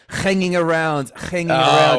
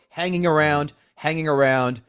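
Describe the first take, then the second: First: It is said in a put-on Russian accent. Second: It is said in the speaker's ordinary accent.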